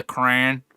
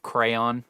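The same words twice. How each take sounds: First: "crayon" squashed into one syllable, CRAN; mispronunciation. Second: "crayon" in two syllables, CRAY-on; full pronunciation. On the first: Retold or imitated. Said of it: "the crayon instead of crayon". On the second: Shown as a demonstration. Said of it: "instead of crayon".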